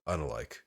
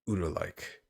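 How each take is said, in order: First: The first vowel sounds like 'uh'. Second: The first vowel sounds like 'ooh'. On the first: The speaker calls it right. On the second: The speaker calls it wrong.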